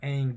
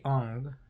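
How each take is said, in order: First: The name is said the familiar way. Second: The name is said the altered way. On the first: The speaker calls it right. "Instead of um, Aang" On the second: The speaker calls it wrong. "they say Ong"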